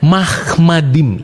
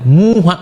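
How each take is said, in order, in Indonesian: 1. Kata ini diawali dengan bunyi 'mah'. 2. Kata ini diawali dengan bunyi 'mu'. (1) "Mahmadim itu bacanya, ya, bukan mu" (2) "Nggak ada bacanya seperti mulutnya Abang Nandar tuh"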